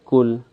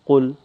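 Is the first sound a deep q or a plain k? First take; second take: plain k; deep q. First: It starts with a plain, light k sound. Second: It starts with a deep sound from the throat. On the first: The speaker calls it wrong. "the small kaf, which is wrong" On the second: The speaker calls it right. "it's from the back of the throat"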